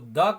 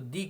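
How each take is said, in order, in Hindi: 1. शब्द एक छोटे 'uh' स्वर पर खत्म होता है। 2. शब्द एक लंबे 'ee' स्वर पर खत्म होता है। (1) "या तो द का उच्चारण करें" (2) "या तो दी का उच्चारण करें"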